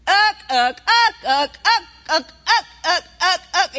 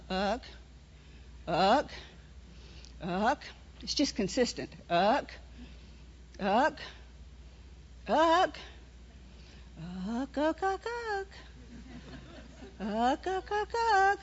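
First: Uck, uck chanted louder and insistent; the inner alarm pushing hard. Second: A soft, lower uck, uck, barely there; the warning as a quiet, steady murmur; real low. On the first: Preacher voices the inner warning before a trip, loud. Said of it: "something inside you keeps going". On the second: Preacher shows the congregation the quiet inner nudge, soft and low. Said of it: "or it may even be real low". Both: Shown as a demonstration.

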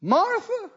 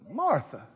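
First: Jesus calling. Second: Jesus, soft second call. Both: Acted. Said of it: "And he said".

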